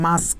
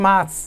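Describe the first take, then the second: First: "মাস্ক" set apart, softly, ending in s then k; correct pronunciation. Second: "মাস্ক" said wrongly as "maks", k before s; mispronounced word. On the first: Teacher correcting students, "মাস্ক" pronounced with final sk. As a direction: finish "মাস্ক" on a final k, "mask". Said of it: "দেখো তো উচ্চারণটা হচ্ছে". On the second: Teacher showing students the wrong way, "মাস্ক" mispronounced as "maks". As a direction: swap the end of "মাস্ক" to a ks sound. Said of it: "উচ্চারণটা তো মাস্ক না". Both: Shown as a demonstration.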